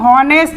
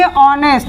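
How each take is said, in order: First: The word begins with an h sound. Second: The word begins with a vowel sound. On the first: The speaker calls it wrong. "इसे हॉनेस्ट नहीं पढ़ेंगे" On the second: The speaker calls it right. "इसे क्या पढ़ेंगे? ऑनेस्ट"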